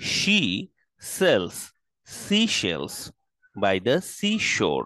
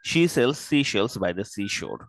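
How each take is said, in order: First: It is said at a moderate pace. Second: It is said faster still.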